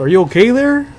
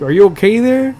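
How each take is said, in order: First: Teacher's catchphrase, pitched way up; mock teacher voice. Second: Teacher's catchphrase, pitched up and a bit louder; mock teacher voice. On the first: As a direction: lightly mimic the airheaded teacher, higher. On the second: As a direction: mimic the clueless teacher, higher.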